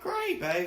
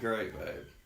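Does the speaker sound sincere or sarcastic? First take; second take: sincere; sarcastic. First: It is said in a sincere, pleased tone. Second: It is said in a grudging, sarcastic tone. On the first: The speaker is genuinely happy about the news. "And then I'm like" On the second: The speaker is unhappy about having to move. "Unless I gotta like move to Buffalo, then I'm like"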